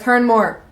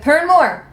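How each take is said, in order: First: Said in the usual way. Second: Higher, insistent "Turn more"; insistent retold order. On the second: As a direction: TURN MORE pitched up and pushed. Photographer's order repeated, pushier.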